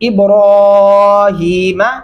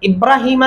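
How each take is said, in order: First: The vowel after the r is held long. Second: The vowel after the r is kept short. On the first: The speaker calls it right. "را کے اوپر کھڑی زبر ہے، آواز کو لمبا کریں گے" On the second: The speaker calls it wrong. "ابراہیم نہیں پڑھنا"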